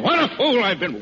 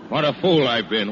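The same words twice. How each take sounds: First: "What" cried out high and loud, falling; second take, much higher, hitting "What"; self-reproach with "What" wailed out high; stress on What. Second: Said in the usual way. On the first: Acted.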